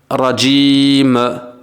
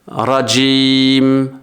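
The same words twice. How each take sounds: First: The final m is released with an extra puff. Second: The final m stays closed without any release. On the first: The speaker calls it wrong. "Je relâche la lettre en fait. Je lui mets une impulsion qui n'a pas lieu d'être" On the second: The speaker calls it right. "Je lâche pas les lèvres en fait"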